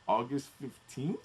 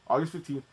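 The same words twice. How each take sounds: First: The voice rises at the end. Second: The voice falls at the end.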